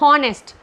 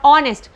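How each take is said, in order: First: The word starts with an audible h sound. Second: The word starts with a vowel; no h sound. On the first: The speaker calls it wrong. "You won't pronounce it as honest" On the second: The speaker calls it right. "H is silent in this. We will pronounce it as what?"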